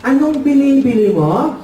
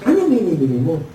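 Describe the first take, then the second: First: Higher, slow, drawn-out question; questioning father. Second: Muffled, lower ngongo question; nasal-speech child. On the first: Father asking the customer's order, questioning. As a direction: ask it as the puzzled shopkeeper. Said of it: "Sabi ng tatay". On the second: Ngongo child asking the customer's order, muffled nasal speech. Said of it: "Pagpunta ng anak ng ngongo". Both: Acted.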